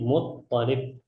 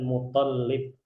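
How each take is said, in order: First: The doubled consonant is the t sound. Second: The doubled consonant is the l sound. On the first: The speaker calls it right. "Yang benar itu tasdidnya adalah di atas huruf to" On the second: The speaker calls it wrong. "bukan Muttalib ya"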